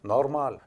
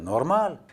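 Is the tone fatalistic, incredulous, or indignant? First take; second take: fatalistic; indignant. First: Said with resigned, fatalistic acceptance. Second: Said with defensive, mind-your-business indignation. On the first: It can't be helped. "la version fataliste" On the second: It is none of your business. "la variante de quoi je me mêle"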